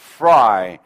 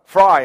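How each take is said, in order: First: The f sound is pushed out before bursting. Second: The f sound starts suddenly, without build-up. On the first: The speaker calls it right. "밀다가 터트리는 게 좋아요" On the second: The speaker calls it wrong. "갑자기 있다가 fry 하는 것보다는"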